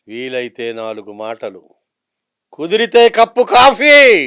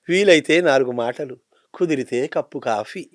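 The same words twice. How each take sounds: First: It is said with dramatic film-style modulation. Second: It is said in a calm, peaceful tone.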